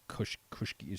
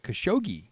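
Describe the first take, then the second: First: The name is said with more original-sounding sounds. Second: The name is said with common English sounds. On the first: The speaker calls it right. "There's actually another way to pronounce his name" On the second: The speaker calls it wrong. "the way everybody mispronounces it"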